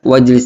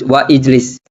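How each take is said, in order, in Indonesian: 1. Huruf 'i' dihilangkan dan kedua kata menyatu. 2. Huruf 'i' diucapkan terpisah setelah 'wa'. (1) "langsung kita baca wajlis" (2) "Tidak perlu baca ijlis, wa ijlis"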